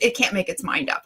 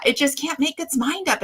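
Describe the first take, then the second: First: Said in the usual way. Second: "just" leaned on, a bit higher; stress on just. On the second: Shown as a demonstration. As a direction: hit the word "just". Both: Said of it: "I'll say it like that".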